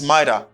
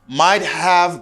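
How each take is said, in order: First: The words blend into one reduced form. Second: Both words are said fully and separately.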